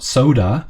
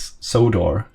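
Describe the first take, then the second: First: It sounds just like the drink soda. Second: It sounds different from the drink soda. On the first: The speaker calls it wrong. "It's it's not soda" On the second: The speaker calls it right. "but it's like Sodor"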